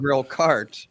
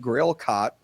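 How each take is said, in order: First: The r in cart is pronounced. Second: The r in cart is dropped. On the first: "when he meant" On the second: "had like a Boston accent and he was saying grill cot"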